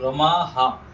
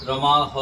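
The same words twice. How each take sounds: First: रमाहा as slow "ramaa-haa"; correct long ending. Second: रमाह ending in a short rounded "ho"; wrong short ending. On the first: Teacher corrects it, रमाहा slowly with a full "haa". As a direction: echo the long आ at the end of रमाहा. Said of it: "आ का उच्चारण जब करेंगे". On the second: Teacher shows the mistake, रमाह with a short final vowel. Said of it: "ऐसे नहीं बोलेंगे". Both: Shown as a demonstration.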